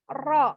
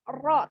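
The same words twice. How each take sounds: No difference in how they are said.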